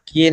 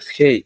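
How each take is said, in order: First: The k sound has no puff of air. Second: The k sound has a puff of air. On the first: The speaker calls it wrong. "কে এর উচ্চারণ কে না হয়ে" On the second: The speaker calls it right. "খেই হবে খেই"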